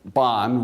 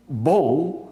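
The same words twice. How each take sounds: First: "bon" said the English way, like "bahn"; anglicised "bon", lower in pitch; English pronunciation. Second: "Bon" said the French way, with a nasal vowel; French "Bon", final n not sounded; French pronunciation. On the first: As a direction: say "bon" with a sounded final n. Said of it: "bon, we say in English". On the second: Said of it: "bon, we say in English, is the French word". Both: Shown as a demonstration.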